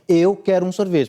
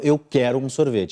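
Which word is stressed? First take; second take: eu; quero. First: The stress falls on the word eu. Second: The stress falls on the word quero. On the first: It is me, not someone else, who wants one. "para ele saber que eu, minha pessoa, quer um sorvete" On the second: I am decided and know what I want. "Eu ponho no verbo"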